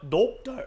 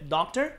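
First: "Doctor" in a crisp, stiff British accent; British English "Doctor" with no final r. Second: "doctor" in an American accent; American English take on "doctor". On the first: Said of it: "영국 영어 좀 딱딱하죠". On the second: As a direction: demonstrate the American way of saying "doctor". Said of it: "미국식은 이제 doctor". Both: Shown as a demonstration.

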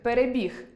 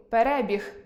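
First: «перебіг» stressed on final «біг», the verb. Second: «перебіг» stressed on «ре», the noun; stress on second «е». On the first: Teacher contrasting verb with noun, «перебіг» stressed on «і». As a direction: hit the last syllable «біг» in «перебіг». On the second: Teacher contrasting noun with verb, «перебіг» stressed on «ре». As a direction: hit the second syllable «ре» in «перебіг». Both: Shown as a demonstration. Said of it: "наголос виконуватиме функцію розрізнення слів".

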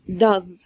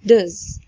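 First: "does" said full, stretched vowel; the strong "does" to avoid. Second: "does" reduced to a short dz; weak does. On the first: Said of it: "هتبقى مش does". (does بالصيغة القوية الكاملة) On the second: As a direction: clip "does" down to dz. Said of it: "هتبقى does". (does ضعيفة مختصرة) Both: Shown as a demonstration.

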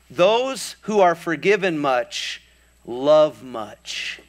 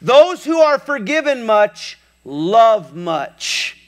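First: Solemn, slow words. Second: High, loud preaching of it; preached loud. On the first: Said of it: "he says something profound". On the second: Jesus declaring to everybody, loud preaching. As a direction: proclaim it to the whole room. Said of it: "he says something profound to everybody". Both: Retold or imitated.

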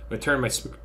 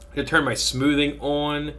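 First: Speaking through hiccups; a hiccup cuts the word off. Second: Said in the usual way. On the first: Real, not acted.

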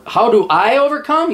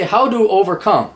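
First: "how do I overcome" lifted into a rising question; question put in full. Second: "How do overcome" falling at the end, missing word left out; read as written. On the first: Host puts the viewer's question properly, rising question. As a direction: ask "how do I overcome" with the pitch climbing at the end. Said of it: "You say, "How do overcome?". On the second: Host quotes the viewer's faulty wording, falling read-out. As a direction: read "How do overcome" evenly and let it drop. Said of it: "You say". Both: Shown as a demonstration.

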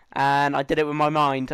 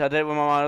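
First: Said in the usual way. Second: Playful spooky psychic tone; mock mystic voice. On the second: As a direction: say it like a smug telepath.

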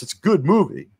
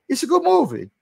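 First: Said in the usual way. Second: Much higher, put-on voice for the line; mock high-pitched voice. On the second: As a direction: squeak it out in a silly character voice. Repeats line in new voice.

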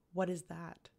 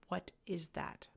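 First: Said in the usual way. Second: Slower and softer, each word weighed; slow repeat. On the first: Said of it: "Manon said". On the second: A narrator's reading. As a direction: repeat it deliberately, unmoved. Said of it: "Manon repeated".

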